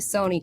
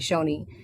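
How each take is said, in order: First: The syllable begins with an s sound. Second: The syllable begins with an sh sound. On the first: This is how the speaker's own community says it. "we say Sony because it's the Seneca pronunciation" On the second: This is how some other people say it. "Some people say Shoni"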